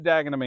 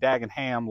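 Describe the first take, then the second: First: The name is pronounced the British way. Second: The name is pronounced the American way. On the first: The speaker calls it right. "but Dagenham, England" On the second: The speaker calls it wrong. "We're not calling it Dagenham like Birmingham, Alabama"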